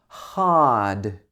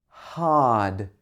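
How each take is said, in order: The two takes are said the same way.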